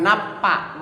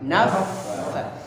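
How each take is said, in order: First: The middle consonant is a P sound. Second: The middle consonant is an F sound. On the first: The speaker calls it wrong. "bukan napa" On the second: The speaker calls it right. "tapi naffa naffa"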